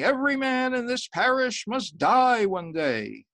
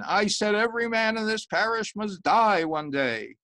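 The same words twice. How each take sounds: First: Slow, high, loud preaching; sermon. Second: High, loud repeated warning; insistent sermon. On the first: Priest warning his parish from the pulpit, loud and slow. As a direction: boom it out from the pulpit. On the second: Priest repeating his warning at the laughing man, louder. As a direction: drive it home to the laughing man. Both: Acted.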